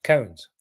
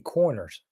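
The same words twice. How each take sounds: First: "cones" for corners, Rs dropped into one syllable. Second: "corners" said with both Rs sounded; corners in full. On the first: Retold or imitated. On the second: Shown as a demonstration. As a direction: decode it: say "corners" slowly, Rs clear. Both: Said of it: "He's saying corners".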